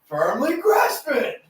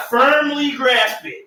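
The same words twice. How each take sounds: First: Slow meme echo. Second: Slow, high and laughing; laughing meme quote. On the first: Echoing the meme line. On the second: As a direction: drawl it out through laughter. Quoting meme line, laughing. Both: Pretend.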